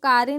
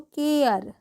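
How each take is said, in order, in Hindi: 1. यह दो अक्षरों में बोला जाता है, kaa-re। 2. यह एक अक्षर में बोला जाता है, kair। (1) "हम इसको कारे नहीं पढ़ेंगे" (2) "कैसे पढ़ेंगे हम इसको, केयर"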